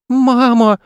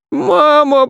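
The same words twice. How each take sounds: First: Put-on high-pitched child calling for mum; tearful boy. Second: Very high wail for mum; boy bawling. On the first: Boy tumbling alone in space, tearful. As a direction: call out plaintively, much higher. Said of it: "И горько заплакал". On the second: Boy lost in empty space, bawling. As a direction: bawl it out in a squealing child voice. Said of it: "заорал на всю пустоту". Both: A narrator's reading.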